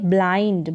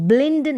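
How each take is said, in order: First: The vowel is a long 'ai' as in bite. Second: The vowel is a short 'i' as in bit. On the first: The speaker calls it right. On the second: The speaker calls it wrong. "इसको ब्लिंड नहीं पढ़ेंगे"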